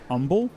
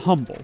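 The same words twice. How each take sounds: First: The word begins with no H sound. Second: The word begins with an audible H sound. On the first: It is the name of the Texas city. "like the H is silent" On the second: It is the ordinary word meaning modest. "It's spelled like that"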